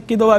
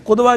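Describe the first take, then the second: First: قدوہ said with a short i on the first syllable, qid-wa; qidwa with i. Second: قدوہ said with a short u on the first syllable, qud-wa; qudwa with u. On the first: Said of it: "قدوہ بھی کہتے ہیں". (قدوہ زیر کے ساتھ، قِدوہ) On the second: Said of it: "قدوہ کہتے ہیں پیشوا کو". (قدوہ پیش کے ساتھ، قُدوہ) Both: Shown as a demonstration.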